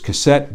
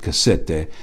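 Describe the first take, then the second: First: It is said like the English word cassette. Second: It is said with Italian sounds, unlike English. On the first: This is how a reader would guess it. The speaker calls it wrong. "You'll read it as cassette" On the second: This is how the owners say it. The speaker calls it right. "but they pronounce it cassette"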